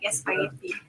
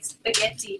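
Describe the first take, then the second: First: The word starts with an added 'e' sound. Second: The word starts directly with the 's' sound.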